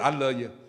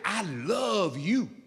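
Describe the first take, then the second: First: It is said quickly and offhandedly. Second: It is said warmly and with feeling.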